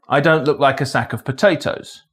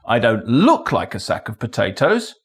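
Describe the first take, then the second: First: No single word carries special stress. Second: The stress falls on the word look. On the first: It is a neutral statement of fact. "a neutral statement of fact" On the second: Maybe it is one rather than looking like one. "Maybe I am a sack of potatoes"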